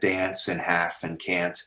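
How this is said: Said with the North American vowel. This is the older pronunciation that stayed in North America. "Shakespeare said dance and half and can't"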